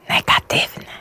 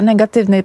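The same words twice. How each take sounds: First: The word is whispered. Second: The word is spoken aloud in full voice.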